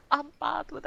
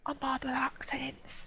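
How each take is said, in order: First: High, voiced comic admission; high-pitched confession. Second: High, squeaky whispered confession; stage whisper. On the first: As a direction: own up aloud in a high voice. Repeats the confession aloud. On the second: Acted. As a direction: whisper it as a sheepish aside. Confides, then repeats it aloud.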